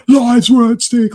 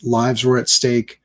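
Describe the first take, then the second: First: High, loud, slow outburst; hammed-up tantrum, drawing the words out; mock losing temper. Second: Said in the usual way. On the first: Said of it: "he starts losing his temper". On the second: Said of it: "he should be like".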